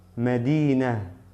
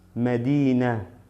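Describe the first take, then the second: Both takes have the same delivery.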